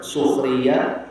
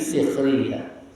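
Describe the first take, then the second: First: The first vowel is a u sound. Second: The first vowel is an i sound. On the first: "Bidom bisin dibaca doma" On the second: "dengan kasroh menjadi sikhriya"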